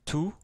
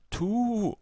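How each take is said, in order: First: The vowel is short. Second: The vowel is long. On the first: "Avec la damma" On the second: "La deuxième voyelle longue arabe, donc c'est waw"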